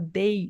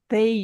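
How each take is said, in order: First: It begins with a hard d sound. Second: It begins with a soft th sound. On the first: "A gente faz um D ali" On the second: "em vez de falar they"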